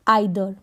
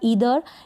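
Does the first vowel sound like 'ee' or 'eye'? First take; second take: eye; ee. First: The word begins with an eye sound. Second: The word begins with a long ee sound. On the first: "आइदर करके भी होता है"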